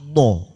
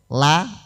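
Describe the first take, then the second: First: The l sound is thick and heavy. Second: The l sound is thin and light. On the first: "ditebalkan menjadi lo" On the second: "la la la"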